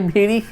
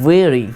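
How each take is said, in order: First: The first sound is made with lips touching. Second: The first sound is made without lips touching. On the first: The speaker calls it wrong. "भेड़ी क्या होता है भाई" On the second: The speaker calls it right. "वेरी बोलना है"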